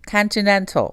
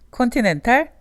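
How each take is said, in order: First: It is said with an American accent. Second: It is said with a Korean accent. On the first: The speaker calls it right. "다르죠" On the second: The speaker calls it wrong. "콘티넨탈 대신에"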